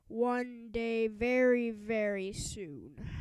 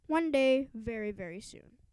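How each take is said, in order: First: Lightly voiced mean principal, slow and drawn out; a hint of menace, stretching very soon; vowing principal. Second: Said in the usual way. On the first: A narrator's reading. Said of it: "Mister Krupp vowed". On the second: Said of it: "Chapter five".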